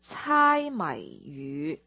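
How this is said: The phrase is pronounced in Cantonese. "那如果是在广东话呢？在粤语"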